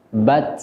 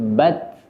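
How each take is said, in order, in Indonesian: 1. Ada hembusan nafas kuat yang berlebihan setelah huruf t. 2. Ada hembusan nafas ringan yang alami setelah huruf t. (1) "tidak dibaca" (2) "alami, tidak dibuat-buat"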